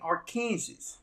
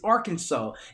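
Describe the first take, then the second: First: The word ends sounding like 'Kansas'. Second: The word does not end sounding like 'Kansas'. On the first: Outsiders say it this way. The speaker calls it wrong. "They start saying Arkansas. I say that's not how you pronounce that" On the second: Locals say it this way. The speaker calls it right. "I said it's Arkansas"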